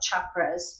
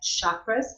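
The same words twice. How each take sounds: First: The word begins with a ch sound. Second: The word begins with an s sound. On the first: The speaker calls it right. "you put that C H sound" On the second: The speaker calls it wrong. "not an S sound, not like chakras"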